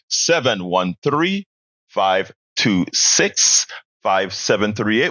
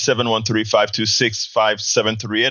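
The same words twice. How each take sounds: First: The number is said more slowly. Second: The number is said at normal speed.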